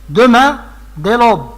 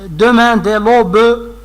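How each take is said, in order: First: The final e of 'aube' is silent. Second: The final e of 'aube' is pronounced. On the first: The speaker calls it right. "Si vous voulez lire selon les règles, vous allez lire comme ça" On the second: The speaker calls it wrong. "mais c'est vraiment pas la bonne prononciation"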